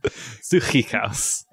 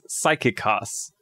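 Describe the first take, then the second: First: The middle consonant is a raspy, throat-clearing sound. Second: The middle consonant is a plain, hard k. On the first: The speaker calls it right. "make sure to do throat clear" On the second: The speaker calls it wrong. "it looks kind of like you'd say it as psychikos"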